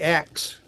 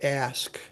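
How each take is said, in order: First: The s sound comes after the k sound. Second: The s sound comes before the k sound. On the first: "would say axe" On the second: "typically for the word ask"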